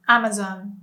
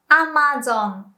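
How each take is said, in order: First: Said in the usual way. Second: "Amazon" with even vowels, "a-ma-zon"; Japanese pronunciation. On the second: Shown as a demonstration. English then Japanese brand demo.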